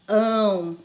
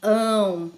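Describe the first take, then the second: First: The vowel is said with nasal sound. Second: The vowel is said with nasal sound.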